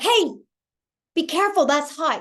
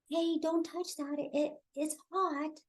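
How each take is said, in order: First: It is said firmly, with command. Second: It is said timidly, with hesitation.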